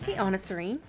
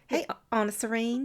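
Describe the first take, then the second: First: It is said in a neutral, non-Southern accent. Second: It is said in a Southern American accent. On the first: "I feel like I should have said that in a southern accent" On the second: "can you just do it again?"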